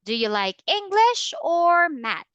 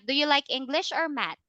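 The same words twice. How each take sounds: First: The pitch rises on English, then falls on math. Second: The pitch stays flat through the question. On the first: The speaker calls it right. "So there is a rising and falling intonation" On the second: The speaker calls it wrong. "Not ... Not that one"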